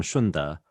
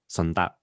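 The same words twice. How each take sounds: First: "Shunde" with an opening SH, shoon-duh; Mandarin-style "Shunde", hushed SH at the front; Mandarin pronunciation. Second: "Shunde" with a plain S, sun-duh; "Shunde" opening like English "sun"; Cantonese-style pronunciation. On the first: Place name said in two dialects. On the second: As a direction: say "Shunde" the local Cantonese way, starting on S. Repeats place name in local dialect. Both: Shown as a demonstration.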